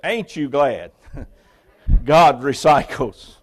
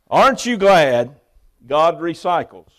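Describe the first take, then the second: First: The first word is pronounced as colloquial 'ain't'. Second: The first word is pronounced as standard 'aren't'. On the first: "For the rest of us, I'll read it this way" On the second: "for all of you who got an A in English"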